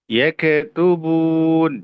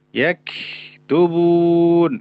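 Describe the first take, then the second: First: The k is released with a bouncing echo. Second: The k is stretched with long friction. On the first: "tidak boleh dipantulkan" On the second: "terlalu memanjangkan sifat rokhawah"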